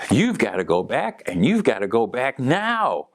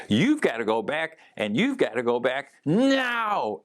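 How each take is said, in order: First: A lightly voiced firm command, hands on hips; stern order. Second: Higher, insistent order with a finger wag; forceful command. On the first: Sister's late sibling ordering her back, lightly stern. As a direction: tell her plainly she has to go back. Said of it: "and she goes". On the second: Retold or imitated. Sister's late sibling insisting she returns, forceful higher command. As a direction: push every word to make her go back now. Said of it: "she said it with such force".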